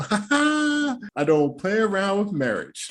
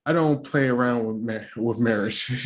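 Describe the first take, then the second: First: High, slow, prissy mocking take; hammed-up high slow imitation of Jasmina; mock prim quote. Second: Said in the usual way. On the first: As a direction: repeat her line slowly in a high mock voice. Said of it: "Came out the lips of Jasmina". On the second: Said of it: "she said".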